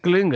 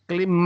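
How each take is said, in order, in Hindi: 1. शब्द का अंत ng ध्वनि से होता है। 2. शब्द का अंत m ध्वनि से होता है। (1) "नहीं क्लिंग है। अंग का उच्चारण होना पड़ेगा।" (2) "क्लिम मैं नहीं"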